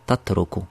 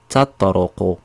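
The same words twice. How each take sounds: First: The t letter is pronounced as a plain t. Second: The t letter is pronounced as a heavy t. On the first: The speaker calls it wrong. "s'il se prononce pas bien, harf ta, il va dire tatruqu" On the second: The speaker calls it right. "essayez de, de répéter avec moi"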